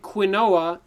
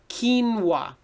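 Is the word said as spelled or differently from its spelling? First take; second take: as spelled; differently. First: It is pronounced the way it is spelled. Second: It is pronounced unlike its spelling. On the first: The speaker calls it wrong. "don't say quinoa" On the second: The speaker calls it right. "You want to say quinoa"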